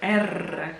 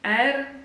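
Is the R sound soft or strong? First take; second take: strong; soft. First: The R is a strong, rolled trill. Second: The R is a soft, light single tap.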